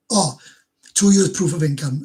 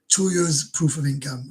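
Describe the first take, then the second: First: Loud, startled reading of the rule; sudden realisation. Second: Slow, subdued repeat of the phrase; slow rereading. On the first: Streamer realising he misread the visa rule, startled. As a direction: catch your own mistake out loud. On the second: Streamer rereading the visa rule to himself, slow and sheepish. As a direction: let it sink in, slowly. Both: Real, not acted.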